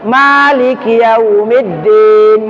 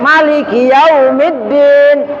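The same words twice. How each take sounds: First: The first vowel of Maliki is long. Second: The first vowel of Maliki is short. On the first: "Ma-nya panjang" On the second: "Kalau Imam Malik, ma-nya pendek"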